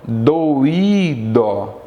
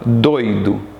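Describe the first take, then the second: First: The vowels o and i are split apart. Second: The vowels o and i share one syllable. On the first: "eu separo" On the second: "Doi está na mesma sílaba"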